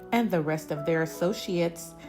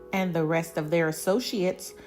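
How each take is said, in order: Both takes have the same delivery.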